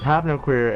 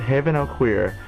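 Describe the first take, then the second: First: The n starts the second word: no. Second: The n joins the first word: haven. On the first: The speaker calls it right. "apparently it's" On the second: The speaker calls it wrong. "We've been pronouncing it"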